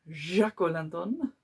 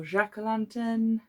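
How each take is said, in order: First: Jack-o'-lantern in a slightly slowed, light mock French accent with a rising end; hint of a French accent on "Jack-o'-lantern"; weird French accent. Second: Said in the usual way. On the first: Shown as a demonstration. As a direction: toss off a playful French twist on "Jack-o'-lantern". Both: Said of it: "I said that with a weird French accent".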